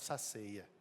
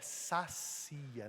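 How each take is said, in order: First: The second syllable has an 'ei' glide. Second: The second syllable has a plain 'i' vowel. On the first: The speaker calls it wrong. "não saceia" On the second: The speaker calls it right. "Então é sacia"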